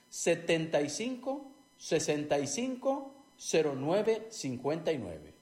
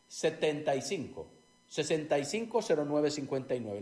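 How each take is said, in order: First: The number is said more slowly. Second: The number is said at normal, faster speed.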